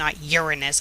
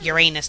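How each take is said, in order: First: The start sounds like the word urine. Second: The start does not sound like urine. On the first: The speaker calls it wrong. "Uranus sounds like urine" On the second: The speaker calls it right. "That's right, guys"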